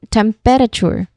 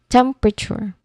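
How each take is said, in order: First: The word is said with four distinct syllables. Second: The word is said with three squeezed syllables. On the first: The speaker calls it wrong. "it sounds like four distinct syllables" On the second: The speaker calls it right. "only three syllables"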